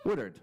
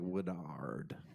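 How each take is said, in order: First: The stress is on the first syllable. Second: The stress is on the last syllable. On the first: The speaker calls it right. "It's probably more like Woodard" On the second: The speaker calls it wrong. "the way that I emphasized the last syllable there was a little bit awkward"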